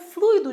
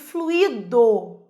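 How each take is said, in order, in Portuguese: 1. O 'ui' é falado como uma sílaba só. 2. O 'ui' é separado em duas sílabas. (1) "O fluido de tongo é um substantivo" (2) "E fluido, hiato, é o particípio do verbo fluir"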